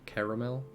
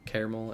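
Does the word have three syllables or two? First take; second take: three; two. First: The word is said with three syllables. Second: The word is said with two syllables.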